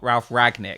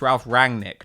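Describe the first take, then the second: First: No n sound comes before the g. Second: An n sound comes before the g. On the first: The speaker calls it wrong. "He leaves out this N" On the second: The speaker calls it right. "let's be clear, it's Ralf Rangnick"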